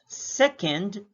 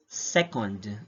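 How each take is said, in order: First: "second" with a reduced ending, pitched higher; ranking pronunciation. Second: "second" slowly, as the unit of time; time-unit pronunciation. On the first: Teacher shows the sound for rankings, ranking pronunciation. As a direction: say "second" as the rank after first. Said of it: "the sound must be". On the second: Teacher shows measurement of time, time-unit pronunciation. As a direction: say "second" with a fuller last vowel. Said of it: "that is sounded as". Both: Shown as a demonstration.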